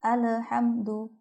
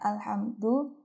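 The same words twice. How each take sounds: First: The L bounces with an added vowel sound. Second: The L is held still with no vowel. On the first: The speaker calls it wrong. "ada saja yang membacanya itu dipantulkan atau diberi harokat" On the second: The speaker calls it right. "yang seharusnya itu bacanya alhamdu"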